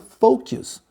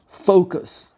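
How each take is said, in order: First: The word is pronounced following its spelling. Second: The word is pronounced the native English way. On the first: The speaker calls it wrong. "eu pronuncio ela de uma forma errada" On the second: The speaker calls it right. "pronunciar essa palavra corretamente"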